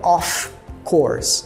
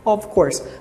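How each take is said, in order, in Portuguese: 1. A primeira palavra termina com um f claro. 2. A primeira palavra termina com um v suave. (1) "Nunca diga off course" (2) "soa praticamente como um V"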